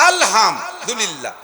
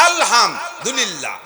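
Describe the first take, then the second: The two takes are said the same way.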